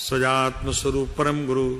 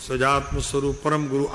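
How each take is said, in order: The two takes are said the same way.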